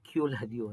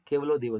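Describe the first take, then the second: First: The name is said as kyu-la-di-yo. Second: The name is said as ke-va-lo-dev. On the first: It follows a careless foreign spelling. The speaker calls it wrong. "ಕರೆಕ್ಟ್ ಆಗಿ ಅನುವಾದ ಮಾಡದೆ" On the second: It means one god. The speaker calls it right. "ಅಂತೇಳಿ ಉಚ್ಚಾರಣೆ ಮಾಡಬೇಕು"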